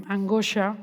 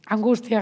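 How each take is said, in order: First: Angustia blurred to angosha, middle sounds slurred; slip of the tongue. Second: Said in the usual way. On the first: Real, not acted. Teacher stumbling over a word in class, blurred angustia. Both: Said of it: "perdón".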